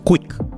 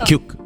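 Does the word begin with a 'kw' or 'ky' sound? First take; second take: kw; ky. First: The word begins with a 'kw' sound. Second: The word begins with a 'ky' sound. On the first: The speaker calls it right. "It should be ക്വിക്ക്" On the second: The speaker calls it wrong. "പലരും പറയും"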